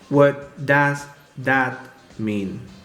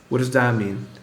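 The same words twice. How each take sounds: First: 'Does' and 'that' get the same emphasis. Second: 'That' is stressed more strongly than 'does'. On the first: The speaker calls it wrong. "that would be giving does the same intonation and emphasis that that has" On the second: The speaker calls it right. "the word that is more important than does. So listen how I pronounce it"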